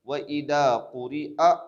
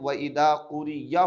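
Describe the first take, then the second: First: The last syllable is a glottal stop with 'a'. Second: The last syllable is pronounced as 'ya'. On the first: The speaker calls it right. "हमज़ा ज़बर अ बोलना है" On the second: The speaker calls it wrong. "बहुत सारे लोग व इदा कुरी या पढ़ते हैं, या, जो कि गलत है"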